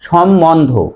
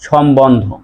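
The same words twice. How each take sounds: First: The middle has a doubled m with no b. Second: The middle has a clear b after m. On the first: The speaker calls it wrong. "আমরা অনেকে উচ্চারণ করি সম্বন্ধ, আসলে এটি ভুল" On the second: The speaker calls it right. "সঠিক উচ্চারণ হবে সম্বন্ধ"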